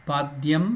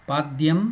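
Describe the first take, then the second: The two takes are said the same way.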